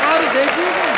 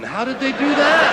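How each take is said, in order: First: Even louder, higher indignant question; louder mock outrage. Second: Loud, high, indignant question; mock outrage. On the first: Comic repeating the question to the crowd, louder still. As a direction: push the outrage further. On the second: Comic asking the crowd, loud and indignant. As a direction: demand it like an outraged man.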